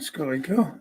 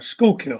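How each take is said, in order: First: The first part has an extra 'ee' sound. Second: The first part ends without an 'ee' sound. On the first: The speaker calls it wrong. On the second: The speaker calls it right.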